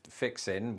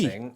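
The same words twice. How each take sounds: First: The word ends without a g sound. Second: The word ends with a full g sound.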